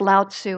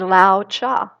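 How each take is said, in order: First: The second syllable sounds like 'tzu'. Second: The second syllable sounds like 'cha'. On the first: The speaker calls it wrong. "I always thought it was Lao Tzu" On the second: The speaker calls it right. "correct pronunciation, and it's al- actually Lao Cha"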